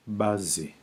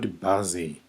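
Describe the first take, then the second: First: "bazi" with the falling correct tone. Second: "bazi" said the wrong way, as a contrast. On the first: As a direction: model the right "bazi". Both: Shown as a demonstration. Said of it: "not bazi".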